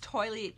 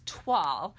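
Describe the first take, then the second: First: The word sounds like the English word toilet. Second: The word is said with a 'twahl' sound. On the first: The speaker calls it wrong. "I said it wrong again" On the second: The speaker calls it right. "but it's Twal"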